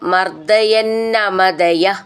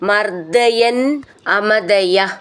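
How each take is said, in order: First: The words are joined with a doubled n. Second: The two words are said separately.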